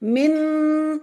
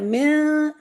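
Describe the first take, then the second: First: The n is fully pronounced with the tongue. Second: The n is hidden in the nose. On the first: The speaker calls it wrong. "ऐसे नहीं" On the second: The speaker calls it right. "इस तरह"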